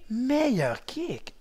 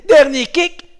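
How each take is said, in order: First: Meilleur stretched very slowly and softly; slow drawn-out. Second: Loud, higher call of last kick. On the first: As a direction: draw out meilleur kick. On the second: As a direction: punch out dernier kick. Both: Shown as a demonstration. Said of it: "tu dis meilleur kick".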